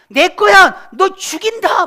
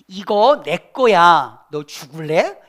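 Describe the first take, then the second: First: It is shouted loudly and angrily. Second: It is said calmly and more quietly.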